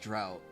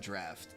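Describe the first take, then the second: First: The word sounds like 'drought'. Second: The word sounds like 'draft'. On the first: The speaker calls it wrong. "I've always pronounced that as drought" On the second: The speaker calls it right. "apparently that's a draft"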